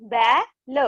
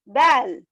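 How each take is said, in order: First: "बै... ल" with a gap between; split reading. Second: "बैल" blended and louder; joined word. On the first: Teacher reading matra words to class, "बै - ल" split. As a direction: break "बैल" into "बै" and "ल". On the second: Teacher completing the word for class, "बैल" joined up. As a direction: punch "बैल" out as one word. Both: Shown as a demonstration. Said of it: "इस तरह से read करेंगे".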